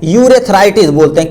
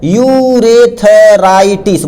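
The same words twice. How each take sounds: First: Said in the usual way. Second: Very slow, each syllable of urethritis drawn out for notes; slow dictation. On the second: Shown as a demonstration. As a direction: spell out urethritis slowly so students can write it. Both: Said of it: "क्या बोलते हैं".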